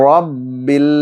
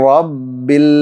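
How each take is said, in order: No difference in how they are said.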